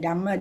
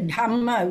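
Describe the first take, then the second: First: The first consonant has no breathy h. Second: The first consonant has a clear breathy h. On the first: The speaker calls it wrong. "we don't say the Dhamma" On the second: The speaker calls it right. "we say the Dhamma"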